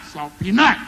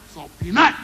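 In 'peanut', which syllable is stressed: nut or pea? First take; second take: nut; nut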